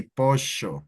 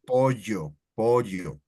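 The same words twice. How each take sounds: First: Pollo with ll said like sh; Argentine accent. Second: Pollo with ll said like a y; Spanish ll. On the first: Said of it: "double L sound like a sh". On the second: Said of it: "that's how it sounds". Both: Shown as a demonstration.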